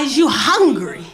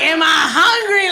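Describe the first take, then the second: First: It is said in his own plain voice. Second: It is said in an imitated teenage daughter's voice.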